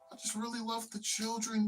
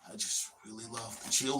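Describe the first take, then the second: First: It is said in a warm, sincere tone. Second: It is said in a sinister, creepy tone. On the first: The person genuinely cares about children. "You have like an actual genuine person" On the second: The person has bad intentions toward children. "And you got the other guy"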